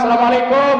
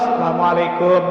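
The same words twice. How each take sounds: First: The greeting is said loudly, with lots of energy. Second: The greeting is said weakly, with little energy. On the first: The husband has lots of money. "kalau salamnya semangat" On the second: The husband has no money. "Kalau salamnya lemes"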